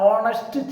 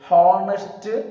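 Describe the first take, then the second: First: The word begins directly with a vowel. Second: The word begins with an h sound. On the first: The speaker calls it right. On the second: The speaker calls it wrong.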